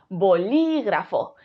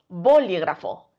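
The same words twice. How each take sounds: First: The stress is on the second syllable. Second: The stress is on the first syllable. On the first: The speaker calls it right. "Si creemos que es li" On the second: The speaker calls it wrong. "Si creemos que la sílaba tónica es bo"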